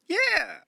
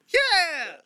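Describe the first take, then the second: First: It is yelled a little more softly. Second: It is yelled very loudly.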